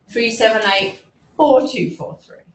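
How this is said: The first four is strongly stressed. It corrects the digit the listener got wrong. "I will have a contrastive stress on the incorrect digit"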